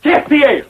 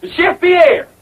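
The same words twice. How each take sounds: First: Put-on French-accented introduction of the chef. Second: Higher-pitched summons; insistent call. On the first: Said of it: "I forgot my French accent". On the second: Acted. Calls again when chef fails to appear.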